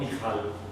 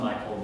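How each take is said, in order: First: The name is said with Hebrew pronunciation. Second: The name is said like English Michael. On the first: "the Hebrew pronunciation" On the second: "Some people call him Michael"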